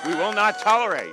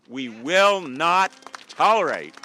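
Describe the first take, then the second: First: Raised high and loud; shouting. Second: Loud. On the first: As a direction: hit it harder the second time. Rally speech repeated louder. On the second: Rally speech building to a shout. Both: Real, not acted.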